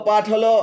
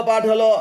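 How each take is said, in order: The two takes are said the same way.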